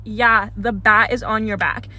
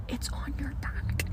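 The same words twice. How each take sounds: First: Said in the usual way. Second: Hushed, breathy whisper through the glass; a secret whisper across the store. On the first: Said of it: "And he says". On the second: Retold or imitated. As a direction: mouth it quietly so only she hears. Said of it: "And he goes like this".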